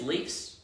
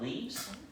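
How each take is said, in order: First: The word ends with an f sound. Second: The word ends with a v sound. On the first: The speaker calls it right. "it is Leafs, plural of Leafs" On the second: The speaker calls it wrong. "not Leaves"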